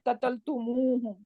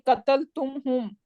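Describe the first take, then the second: First: An extra u vowel follows tum before hum. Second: Tum runs straight into hum with no added vowel. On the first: The speaker calls it right. "for the fluency" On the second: The speaker calls it wrong. "it is so hard"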